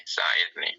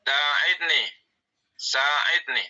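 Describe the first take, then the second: First: Whispered. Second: Called command. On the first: Teacher repeating the command word to the class in a whisper. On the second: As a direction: sing out Sa'idni like an order. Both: Shown as a demonstration. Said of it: "yang mengandung amru".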